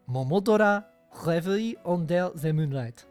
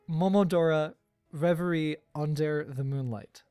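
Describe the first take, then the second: First: It is said with a put-on French accent. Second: It is said with a plain English accent.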